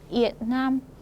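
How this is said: It is said with a southern Vietnamese accent. "남쪽 사람들은 베트남, 베트남 이렇게 읽습니다"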